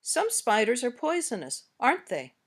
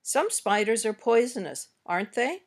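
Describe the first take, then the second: First: "aren't they" drops at the end; falling tag intonation. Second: "aren't they" rises at the end; rising tag intonation. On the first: Teacher gives learners the other tag version, falling tag. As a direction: let "aren't they" fall, already sure. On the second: Teacher gives learners a tag question to practise, rising tag. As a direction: lift "aren't they", unsure of the answer. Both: Shown as a demonstration. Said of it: "Notice the intonation you use".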